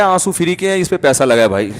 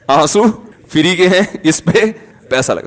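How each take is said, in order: First: Said in the usual way. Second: آنسو, pause, free کے ہیں, pause, اس پہ, pause, پیسہ لگا; deliberate pauses. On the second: Retold or imitated. Excuse repeated for comic emphasis.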